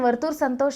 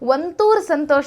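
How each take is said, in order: First: The first word has an r sound before t. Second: The first word has an n sound before t.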